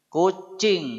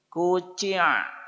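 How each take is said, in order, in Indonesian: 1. Kata itu diakhiri dengan bunyi ng. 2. Kata itu diakhiri dengan bunyi hamzah.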